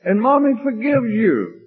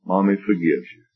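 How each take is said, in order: First: High, hammed-up motherly cooing; exaggerated comforting. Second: Gentle, understated motherly reassurance. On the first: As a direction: soothe a child in a very high voice. Second take, high exaggerated comforting. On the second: Acted. First take, mother's quiet comforting.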